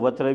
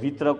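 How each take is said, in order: First: The first vowel is a. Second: The first vowel is i.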